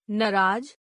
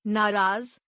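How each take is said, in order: First: नाराज as "naraaj", short first vowel, final j; mispronounced. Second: Said in the usual way. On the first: Shown as a demonstration. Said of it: "अशुद्ध". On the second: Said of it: "शुद्ध".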